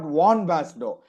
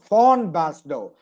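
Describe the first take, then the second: First: The first word begins with a V sound. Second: The first word begins with an F sound. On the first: The speaker calls it wrong. "it's not von Basdow" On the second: The speaker calls it right. "V is pronounced as Fa in German"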